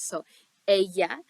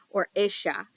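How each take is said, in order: First: It is said in the plain class accent. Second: It is said in a Uruguayan accent.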